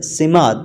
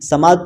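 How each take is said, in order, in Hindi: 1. पहला स्वर छोटा 'i' है। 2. पहला स्वर खुला 'a' है। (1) "सीन के नीचे ज़ेर आपने पढ़नी है" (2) "बाज़ अफराद समात पढ़ते हैं, समात लफ्ज़ गलत है"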